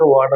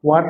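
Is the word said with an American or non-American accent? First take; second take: American; non-American. First: The word is said with an American accent. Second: The word is said without an American accent.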